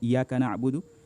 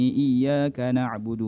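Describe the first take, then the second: First: The y sound in iyyaka is single. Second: The y sound in iyyaka is doubled. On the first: The speaker calls it wrong. "tasydidnya sudah hilang" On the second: The speaker calls it right. "membaca Al-Fatihah cepat tapi masih benar"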